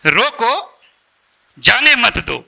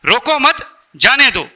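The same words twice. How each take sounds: First: रोको rising, long pause, जाने मत दो falling; comma after रोको. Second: रोको मत run together, then जाने दो; pause after मत. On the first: Speaker showing same line, new meaning, pause after रोको. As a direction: hold the break after रोको, then जाने मत दो. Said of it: "comma". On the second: Speaker showing the insulting reading, pause after मत. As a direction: keep मत with रोको, break before जाने दो. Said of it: "इंसल्ट लगा कि नहीं उसको?". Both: Shown as a demonstration.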